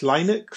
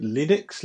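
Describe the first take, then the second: First: "Linux?" said as LYE-nix, long i, rising higher; "Linux?" with long i like "line", still asking; unsure pronunciation. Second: "Linux?" said as LIN-ix, short i, rising; "Linux?" with short i like "lin", asking; unsure pronunciation. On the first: Unsure guest retries "Linux?" as LYE-nix on a quiz. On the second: Unsure guest tries "Linux?" as LIN-ix on a quiz. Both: Real, not acted. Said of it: "I can't pronounce it".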